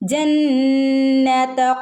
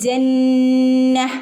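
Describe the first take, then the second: First: The word ends with a 'ta' sound joined on. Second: The word ends without any 't' sound. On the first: The reciter keeps going into the next words. "കൂട്ടി ചേർത്ത് ഓതി പോവാണെങ്കിലോ" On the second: The reciter stops at this word. "ഈ ത എന്നുള്ള ഒരു സൗണ്ട് അവിടെ വരില്ല"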